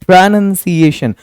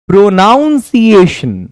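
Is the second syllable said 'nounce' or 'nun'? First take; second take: nun; nounce. First: The second syllable sounds like 'nun'. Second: The second syllable sounds like 'nounce'. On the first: The speaker calls it right. "you have to say like" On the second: The speaker calls it wrong. "प्रोनाउंसिएशन is absolutely wrong"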